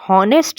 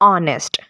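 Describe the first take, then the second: First: The word begins with an audible h sound. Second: The word begins directly with a vowel sound. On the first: The speaker calls it wrong. "हॉनेस्ट ये word नहीं है" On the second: The speaker calls it right. "यहाँ पर एच जो है वो silent है"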